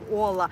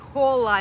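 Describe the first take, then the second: First: The h at the start is silent. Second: The h at the start is pronounced. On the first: The speaker calls it right. "the h is not pronounced" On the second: The speaker calls it wrong. "he keeps saying hola"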